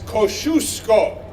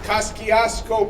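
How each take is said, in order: First: The name is said with a Polish pronunciation. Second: The name is said with an Americanized pronunciation. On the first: The speaker calls it right. "The Polish uh, correct way to say the word is Kosciuszko" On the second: The speaker calls it wrong. "The New Yorkers pronounce this bridge Kosciuszko Bridge. That is wrong"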